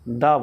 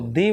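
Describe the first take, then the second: First: The word ends in a short 'uh' vowel. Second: The word ends in a long 'ee' vowel. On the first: It comes before a consonant sound. "Consonant sound के पहले द बोलते हैं" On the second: It comes before a vowel sound. "Vowel sound के पहले हम लोग उसको दी बोलते हैं"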